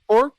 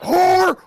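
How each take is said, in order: First: The word is said without yelling. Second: The word is yelled loudly. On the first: This is how it was actually said. "he didn't actually scream it" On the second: This is how it was remembered. "He didn't even yell it into the camera. I was like"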